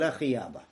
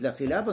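First: The second word has a Y sound in the middle. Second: The second word has an L sound in the middle. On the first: The speaker calls it wrong. "вместо этого говорил ля хияба" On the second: The speaker calls it right. "Должен был говорить ля хиляба"

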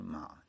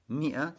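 First: The word is said with an 'a' vowel. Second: The word is said with an 'i' vowel. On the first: The speaker calls it wrong. "ошибаются эти люди, которые читают ма" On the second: The speaker calls it right. "это миа, так же, как фиа"

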